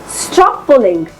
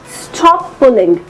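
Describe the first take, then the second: The two takes are said the same way.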